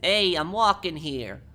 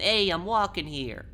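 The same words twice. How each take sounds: First: Loud, slow, higher Italian-American "Hey, I'm walking here"; slow, loud Italian accent, pitched higher. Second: Loud, slow New York street shout, pitched higher; slow, loud, high Brooklyn accent; New Yorker accent. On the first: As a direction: belt it out like an Italian guy stepping off the curb. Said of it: "for the Italian accent". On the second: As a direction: yell it like a New York cabbie cut you off. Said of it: "It's more a New Yorker accent". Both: Shown as a demonstration.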